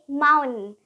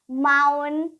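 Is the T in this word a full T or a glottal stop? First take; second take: glottal stop; glottal stop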